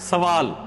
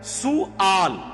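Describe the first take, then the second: First: The first syllable has an 'a' vowel. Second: The first syllable has a 'u' vowel. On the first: The speaker calls it wrong. "उर्दू में हम उसे जबर से पढ़ते हैं" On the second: The speaker calls it right. "सीन पे पेश, वाव के बाद वो जो अलिफ है वो हमजा"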